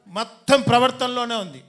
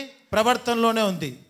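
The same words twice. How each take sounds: First: ప్రవర్తనలోనే hit hard with a falling close; preacher stressing ప్రవర్తనలోనే. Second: ప్రవర్తనలోనే drawn out slowly, each syllable weighted; preacher slowly repeating ప్రవర్తనలోనే for the crowd; slow stressed repeat. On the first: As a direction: lean on ప్రవర్తనలోనే, then drop the pitch. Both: Shown as a demonstration. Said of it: "ఏముంది?".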